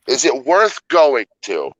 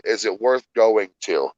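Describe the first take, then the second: First: "worth" leaned on, slower and higher; slower emphatic repeat. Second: Said in the usual way. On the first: Shown as a demonstration. Friend repeating his question about the park, slow and emphatic.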